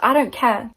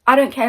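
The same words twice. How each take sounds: First: Said in the usual way. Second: Louder second I don't care, don't punched; emphatic repeat. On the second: Pretend. A viewer shrugging off missing compliments, firm and loud. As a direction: say it again with real conviction. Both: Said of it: "just be like".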